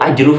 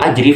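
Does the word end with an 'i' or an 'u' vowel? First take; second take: u; i. First: The word ends with an 'u' vowel. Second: The word ends with an 'i' vowel. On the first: The noun is read in the nominative case. The speaker calls it right. "Rasulullah bacanya rofa" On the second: The noun is read in the genitive case. The speaker calls it wrong. "dibaca jer"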